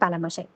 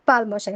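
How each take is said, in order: First: An extra 'a' vowel joins the two parts. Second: No extra vowel comes between the two parts. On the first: The speaker calls it wrong. "আমি কি বারবার পালামশাই বলছিলাম?" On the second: The speaker calls it right. "এটা হবে হচ্ছে পাল মশাই"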